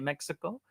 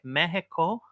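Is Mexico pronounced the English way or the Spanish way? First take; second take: English; Spanish. First: Mexico is pronounced with its English sounds. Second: Mexico is pronounced with its Spanish sounds. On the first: This is the anglicized pronunciation he uses. "I say Mexico" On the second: This is the local pronunciation he does not use. "I also don't say Mexico"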